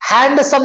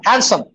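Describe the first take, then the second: First: "हैंडसम" wrongly as HAND-sum; D sounded. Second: "हैंडसम" as HAN-sum, no D; silent D. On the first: Teacher showing what not to say, "हैंडसम" with D sounded. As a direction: pronounce the D in "हैंडसम". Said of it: "हैंडसम नहीं बोलना". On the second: Teacher modelling for the class, "हैंडसम" with silent D. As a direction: drop the D from "हैंडसम". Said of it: "डी खत्म कर दो". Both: Shown as a demonstration.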